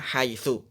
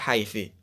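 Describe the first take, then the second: First: The word ends with a u vowel. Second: The word ends with an i vowel. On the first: The speaker calls it right. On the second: The speaker calls it wrong. "tidak boleh"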